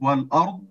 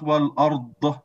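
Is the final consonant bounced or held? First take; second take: held; bounced. First: The final consonant is held without release. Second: The final consonant is released with a bounce. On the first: The speaker calls it right. "So you have to hold the dot" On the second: The speaker calls it wrong.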